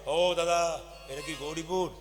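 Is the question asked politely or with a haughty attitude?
haughty. It is asked in a haughty, bossy tone.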